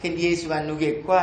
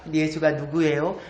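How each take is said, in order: First: Low Jeju grandmother asking, rising end; Jeju dialect question. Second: Low standard Korean, rising end; standard Korean question. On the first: Retold or imitated. Grandmother asking her friend while weeding, in Jeju dialect. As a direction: ask it in lilting Jeju dialect. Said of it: "할망 둘이가 막 검질 매다가 합니다". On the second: Shown as a demonstration. Speaker translating a grandmother's question, in standard Korean. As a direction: ask it in standard Seoul-style Korean. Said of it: "표준 말로 하면".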